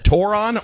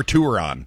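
First: "toron" said tore-on, with an or sound; "toron" starting like the word tore; said like moron. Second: "touron" said tour-on, with an oo sound; "touron" as in being on tour. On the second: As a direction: start "touron" like the word tour. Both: Shown as a demonstration. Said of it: "would you pronounce that".

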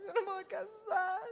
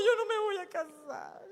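First: Put-on high tearful child's voice, stressing no; a little girl sobbing, leaning on the word no; imitating a crying child. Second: Put-on high tearful child's voice, stressing yo; a little girl sobbing that she won't marry, stress on yo; imitating a crying child. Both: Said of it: "Y se atacaba a llorar".

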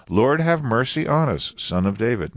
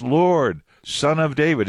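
First: Said in the usual way. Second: "Lord" held alone, then "Son of David" kept high; emphatic on SON OF DAVID. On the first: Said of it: "First time". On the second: Shown as a demonstration. Blind men repeating their cry to Jesus, emphatic "Son of David". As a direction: set "Son of David" apart as a raised cry. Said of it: "You see the emphatic on Son of David?".

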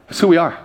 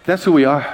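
The two takes are said the same way.

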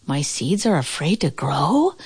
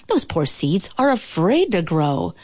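First: Rising tune up to "grow?"; puzzled question. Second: Said in the usual way. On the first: A narrator's reading. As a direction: echo it as a question, lifting "grow?" at the end. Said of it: "asked Toad".

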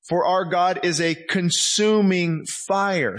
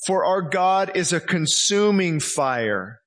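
First: Slower still, stressing consuming; slow emphatic repeat; repeated slowly. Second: Slow, weighty scripture reading; solemn slow read; read slowly. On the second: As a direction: let each word land. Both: Shown as a demonstration. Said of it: "Hebrews twelve".

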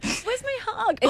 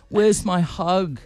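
First: Put-on high, soft baby voice; mocking baby talk. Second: Slow, lightly voiced needy bloke; mocking bloke voice. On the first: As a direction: whine it like a clingy baby. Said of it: "I've done it in a baby voice". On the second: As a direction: drag it out like a creepy guy. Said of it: "but a bloke".

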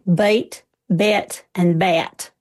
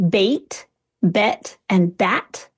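First: BITE, BET, BAT with vowels gliding like diphthongs; Southern "bite, bet, and bat", each vowel a diphthong; Southern drawled vowels. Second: Said in the usual way. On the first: Shown as a demonstration. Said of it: "a little bit more like diphthongs". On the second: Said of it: "Those in a Southern accent".

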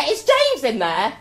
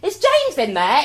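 First: High, loud, slow sing-song call again; hammed-up calling through the door. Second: Calling out. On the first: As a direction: lean round the door and call out. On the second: Retold or imitated. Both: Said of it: "and go".

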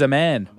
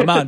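First: Aman said like "a man"; mispronounced name. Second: Aman with a long open "ah", uh-MAHN; corrected pronunciation. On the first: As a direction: say Aman with the flat vowel of "man". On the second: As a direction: say Aman to rhyme with "on". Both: Real, not acted. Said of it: "it's pronounced Aman".

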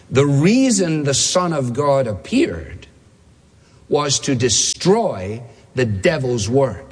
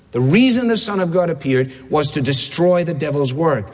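First: Slow, weighty reading with a long pause; slow quote reading. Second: Said in the usual way. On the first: Shown as a demonstration. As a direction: read it out slowly, phrase by phrase. Quote announced, read out slowly.

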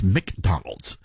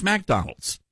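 First: "McDonald's" drawn out slowly with a short "Mick" first syllable; northern pronunciation. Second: "McDonald's" with the first syllable said as "Mack"; southern pronunciation. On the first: Retold or imitated. Mocking how northerners correct a southern accent, "McDonald's" as "Mick-Donald's". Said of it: "if you're up north, they'll laugh at you. They, they'll say". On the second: Shown as a demonstration. Insisting to northerners on his own way, "McDonald's" as "Mack-Donald's". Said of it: "So it's Mac".

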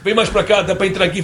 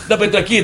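First: Lightly imitated European Portuguese cameraman; Portuguese accent. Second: Put-on the cameraman repeats it in a light European Portuguese accent; Portuguese accent repeated. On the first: Portuguese cameraman directing Oscar on set, in a mild Portuguese accent. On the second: Portuguese cameraman repeating his request, in a mild Portuguese accent. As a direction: say it again, mildly Portuguese. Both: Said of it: "aí seu Oscar".

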